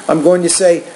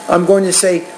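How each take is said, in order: No difference in how they are said.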